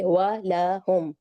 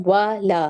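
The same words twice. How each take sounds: First: वा ला हुम said slowly, each vowel kept short for one beat. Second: वा ला said with both vowels stretched, the wrong way; wrong long vowels. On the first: Teacher recites the correct short-vowel वा ला हुम. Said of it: "एक एक हरकत है". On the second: Teacher demonstrates the wrong, drawn-out वा ला. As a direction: show the mistake by drawing out वा ला. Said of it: "वा ला हुम नहीं पढ़ेंगे". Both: Shown as a demonstration.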